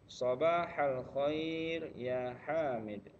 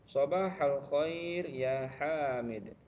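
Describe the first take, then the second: Both takes have the same delivery.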